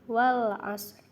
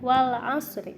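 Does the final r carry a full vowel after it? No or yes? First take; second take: no; yes. First: The final r is only half sounded. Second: The final r carries a full vowel.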